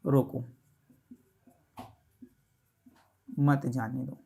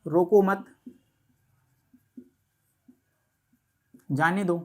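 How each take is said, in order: First: Low "रोको", long pause, then "मत जाने दो" together; pause after रोको. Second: "रोको मत" as one unit, long pause, then "जाने दो"; pause after मत. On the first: Teacher rewriting the sentence for students, pause after रोको. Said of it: "अगर मैं इसको कुछ इस तरीके से". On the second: Teacher demonstrating a sentence to students, pause after मत. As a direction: keep रोको and मत together, break before जाने. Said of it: "जैसे मैं एक सेंटेंस आपसे बोलता हूँ". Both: Shown as a demonstration.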